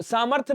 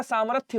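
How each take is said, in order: First: सामर्थ्य said "saamarth", final y dropped; wrong form. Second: सामर्थ्य with the final y sounded; correct form. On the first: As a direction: end सामर्थ्य on the th. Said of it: "सामर्थ्य नहीं होता". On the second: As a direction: say सामर्थ्य as "saamarth-ya". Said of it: "सामर्थ्य होता है". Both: Shown as a demonstration.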